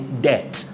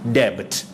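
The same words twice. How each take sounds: First: No b sound is heard before the t. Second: A b sound is heard before the t. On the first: The speaker calls it right. "the noun is debt" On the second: The speaker calls it wrong. "not debt"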